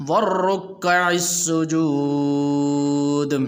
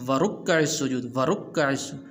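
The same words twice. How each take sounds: First: وَالرُّكَّعِ with doubled ra, slow recitation; correct shadda. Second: وَرُكَّعِ said quickly without the doubled ra; wrong reading. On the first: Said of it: "تو اس طرح پڑھیں گے". (را پر شد کے ساتھ وَالرُّكَّعِ) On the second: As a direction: say وَرُكَّعِ with a single r, no shadda. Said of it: "بعض اس کو پڑھتے ہیں". (را کی شد کے بغیر وَرُكَّعِ) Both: Shown as a demonstration.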